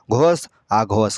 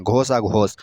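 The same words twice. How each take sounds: First: Slow and deliberate, each word drawn out; slow, spelled-out repeat. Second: Said in the usual way. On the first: Shown as a demonstration. Teacher repeats the terms slowly for pupils. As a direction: let pupils catch every syllable, slowly. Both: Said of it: "teacher repeating terms for pupils".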